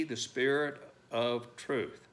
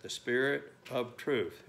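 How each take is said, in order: First: Said in the usual way. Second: The Spirit of truth, slow, weight on Spirit; emphasized phrase. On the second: Shown as a demonstration. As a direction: lean on "Spirit of truth", slowly. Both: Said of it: "and I emphasize that".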